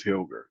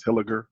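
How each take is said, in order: First: Hilger said in two syllables, HIL-ger; two-syllable pronunciation. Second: Hilliger said in three syllables, HIL-ih-ger; three-syllable pronunciation. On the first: Guest giving the other street name, Hilger in two syllables. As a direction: run l straight into g in Hilger. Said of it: "some people pronounce it as". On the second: Guest explaining his street's name, Hilliger in three syllables. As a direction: give Hilliger a short middle vowel between l and g. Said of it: "some people say, pronounce it as". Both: Shown as a demonstration.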